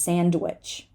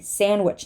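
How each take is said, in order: First: The D sound is pronounced. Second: The D sound is dropped. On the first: The speaker calls it wrong. "no one says sandwich" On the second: The speaker calls it right. "same story"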